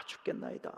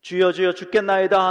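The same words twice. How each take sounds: First: Breathy, frightened whisper of despair; faint voiceless fearful murmur. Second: Loud, higher cry of panicked disciples; desperate shout to the sleeping master. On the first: Retold or imitated. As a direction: whisper it like you're losing hope. Fearful cry of weak faith. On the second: Acted. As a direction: cry out for help as the boat sinks. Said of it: "이십사 절 이십오 절을 한번 보십시오".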